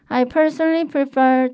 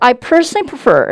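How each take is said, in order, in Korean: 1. 목소리가 약하고 앞으로 뻗지 않아요. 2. 목소리가 앞에서 강하게 뻗어 나와요. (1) "제가 안 되는 예시 먼저 설명드릴게요" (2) "마스크 밖으로 음성 뽑아볼게요"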